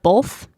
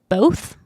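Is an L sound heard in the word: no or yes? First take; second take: yes; no. First: The word is said with an L sound. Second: The word is said without an L sound. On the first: The speaker calls it wrong. "Utah people say both with like an L" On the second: The speaker calls it right. "So I try and say both"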